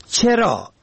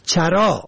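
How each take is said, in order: First: چرا said "cheraa", short e first; kasra on first letter. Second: چرا said "charaa", short a first; fatha on first letter. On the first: Teaching the word for why, short e vowel. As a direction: say چرا as "che-raa". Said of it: "به کسر اول". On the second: Teaching the word for grazing, short a vowel. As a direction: say چرا as "cha-raa". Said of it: "به فتح اول". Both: Shown as a demonstration.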